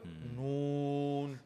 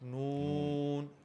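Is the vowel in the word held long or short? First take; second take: long; short. First: The vowel is drawn out long and heavy. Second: The vowel is said short, without lengthening. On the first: The speaker calls it right. "भारी मद लगा के" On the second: The speaker calls it wrong. "नून से नहीं होती"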